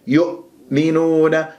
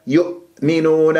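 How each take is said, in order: First: يؤمنون with the damma of the ya dragged onto the hamza, slow; يؤمنون said with the hamza weakened; wrong hamza. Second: يؤمنون split into يؤ and منون, the hamza closed cleanly; يؤمنون in two clear syllables; correct hamza. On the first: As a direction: blur the hamza in يؤمنون, the mistake. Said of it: "خطأ". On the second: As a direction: stop crisply on the hamza of يؤمنون. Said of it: "اجعلها مقطعين". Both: Shown as a demonstration.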